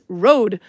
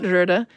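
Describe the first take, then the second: First: The vowel is a plain 'oh' sound. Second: The vowel is a rounded 'er' sound. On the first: The speaker calls it right. "it's road" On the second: The speaker calls it wrong. "So it's not Røde"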